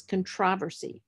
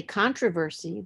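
First: CONTROVERSY the British way, con-TROV-er-sy; stress on second syllable. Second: CONTROVERSY the American way, CON-tro-ver-sy; stress on first syllable. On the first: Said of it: "they s-, pronounce that word as". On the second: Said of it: "British English speakers don't say controversy". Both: Shown as a demonstration.

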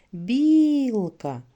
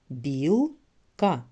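First: «Білка» called out loud and high, long «і»; called out for stress. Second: «Білка» in two separate beats, «Біл», pause, «ка»; split into syllables. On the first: Teacher helping children find stress, «Білка» called out, first syllable drawn out. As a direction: hoot it as one word, stretching «Біл» in «Білка». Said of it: "Гукайте". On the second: Teacher counting syllables for children, «Білка» broken in two. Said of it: "Промовляємо". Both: Shown as a demonstration.

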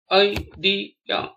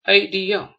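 First: "idea" spaced out as i, de, a; syllable by syllable. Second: Said in the usual way. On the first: Shown as a demonstration. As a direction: pause between the three syllables of "idea". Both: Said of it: "spell the word".

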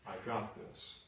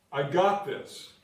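First: A hushed "I got this"; quiet assurance. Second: Slow, loud, punching the words; a firm, loud "I got this"; emphatic declaration. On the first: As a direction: say it under your breath, certain. Quiet repeat after doctor's verdict. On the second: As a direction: proclaim it with full conviction. Preacher declaring God's promise. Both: Acted.

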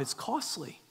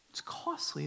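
First: Said in the usual way. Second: Hushed repeat of costly; whispered echo. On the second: Real, not acted. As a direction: whisper the word costly back.

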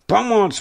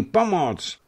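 First: High, loud yell across the water; desperate high shout for help; loud cry for help. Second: High call trailing off in volume; fading cry for help. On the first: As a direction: shout it to the walls from the boat. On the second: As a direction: let the final shout tire out. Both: Acted. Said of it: "hlasitě křičel".

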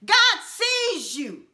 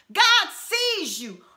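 No difference in how they are said.

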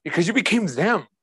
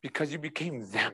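First: Emphatic, at full speaking level; firm grave answer. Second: Much softer and lower; hushed grave answer. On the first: Preacher repeats God's answer to the congregation, emphatic. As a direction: press the reply home firmly. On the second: Preacher voices God answering Jesus on the cross, hushed. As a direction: let it drop to a quiet, sombre reply. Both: Acted.

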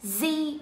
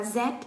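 First: "Z" said as "zee", drawn out; American "zee". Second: "Z" said as "zed", closed by a d; British "zed". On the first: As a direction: say "Z" with a long ee and no final d. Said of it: "có hai cách đọc". (đọc "Z" là "zi") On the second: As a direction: say "Z" with a short e and final d. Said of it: "Một thì chúng ta đọc là Z". (đọc "Z" là "zét") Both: Shown as a demonstration.

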